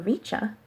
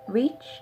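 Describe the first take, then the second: First: An extra vowel is added after the ch sound. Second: The word ends cleanly on the ch sound. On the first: The speaker calls it wrong. "C H never says cha. We don't say pizza or richa" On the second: The speaker calls it right. "C H usually says ch"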